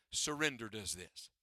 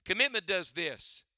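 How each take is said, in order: First: "Surrender" dropped lower and much softer. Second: COMMITMENT stated firmly, at normal volume. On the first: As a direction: let "Surrender" sink down, low and hushed. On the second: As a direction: say "Commitment" plainly and squarely. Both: Shown as a demonstration. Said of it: "Watch here. Look up here".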